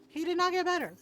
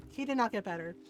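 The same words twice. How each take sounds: First: "not" hit higher, pitched up; stress on not. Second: Said in the usual way. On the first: Shown as a demonstration. Repeating to her audience, stressing "not". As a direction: lean hard on "not", higher.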